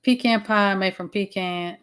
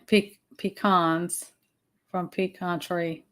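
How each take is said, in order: First: Slow "pecan" with a long ee and "can" as in tin can; PEE-kan for "pecan", drawn out; pee-can pronunciation. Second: Slow "pecan" with a long ee, then an open "kahn"; pee-KAHN for "pecan", drawn out; pee-kahn pronunciation. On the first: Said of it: "That's about how it goes". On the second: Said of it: "I'll switch it up". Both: Shown as a demonstration.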